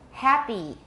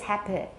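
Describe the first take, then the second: First: The final vowel is long and tense. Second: The final vowel is short and lax. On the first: The speaker calls it right. "It's long" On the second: The speaker calls it wrong. "Nobody says happy"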